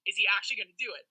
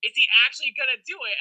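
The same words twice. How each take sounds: First: Said in the usual way. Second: Quick, louder repeat with "actually" punched; emphatic disbelief. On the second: Retold or imitated. Jury watching the finalist, louder stress on "actually". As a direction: hit "actually" hard and fast, in amazement. Jury's wondering, repeated with more force.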